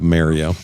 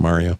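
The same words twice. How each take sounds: First: Mario is said with a Canadian pronunciation. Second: Mario is said with an American pronunciation. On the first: "Our favorite Canadian export is the use of Mario" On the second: "instead of"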